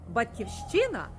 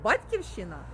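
First: The stress is on the third syllable. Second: The stress is on the second syllable. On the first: It means a native land or place of origin. "Батьківщина – це край або країна, де ми народилися" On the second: It means an inheritance from one's parents. "Батьківщина – це спадок, це спадщина від батьків"

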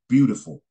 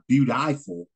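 First: The middle vowel is said short and reduced. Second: The middle vowel is said full and long. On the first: The speaker calls it right. "like the I and beautiful" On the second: The speaker calls it wrong. "So it's not beautiful"

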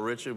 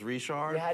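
First: The name is said in a plain English way. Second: The name is said in a French-Cajun way. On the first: "his last name is spelled Richard" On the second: "That right there is a typical Louisiana accent"

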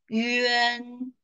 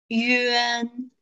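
Both takes have the same delivery.

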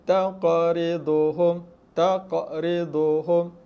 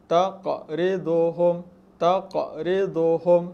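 The two takes are said the same way.

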